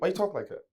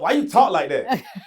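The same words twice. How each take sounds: First: It is said with a slight New York accent. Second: It is said with a country Southern accent. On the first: The speaker calls it wrong. "this sounds a little New York" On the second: The speaker calls it right. "Let me put the country in there"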